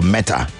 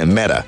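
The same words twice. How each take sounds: First: The word is said with a non-American accent. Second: The word is said with an American accent.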